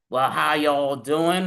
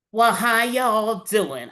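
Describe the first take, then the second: First: Slow, drawn-out greeting in a lower voice; a hint of a laid-back cop saying hello; Horatio Kane greeting. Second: Slow, drawn-out greeting in a lightly higher voice; a touch of a cheeky clown girl drawling hello; Harley Quinn greeting. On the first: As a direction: drawl "Well, how y'all doing?" lower and slower as a cool detective. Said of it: "My name is Horatio Kane". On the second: Acted. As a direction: stretch out "Well, how y'all doing?" playfully as a light Harley. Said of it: "I'm Harley Quinn".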